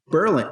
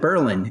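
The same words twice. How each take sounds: First: It is said the way the spelling suggests. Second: It is said the local New Hampshire way. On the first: This is how the spelling would lead you to say it. The speaker calls it wrong. "you would think it's Berlin" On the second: This is how the town's residents say it. The speaker calls it right. "in New Hampshire they call it Berlin"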